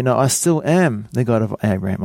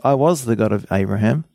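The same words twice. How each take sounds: First: "am" pressed and held, present tense; stress on am. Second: "was" leaned on with a rise, past tense; stress on was. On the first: Preacher giving God's real words, stress on "am". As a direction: lean on "am" as still true. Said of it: "He say". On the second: Preacher contrasting what God did not say, stress on "was". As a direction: hit "was" to show it is over. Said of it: "So he didn't say". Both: Shown as a demonstration.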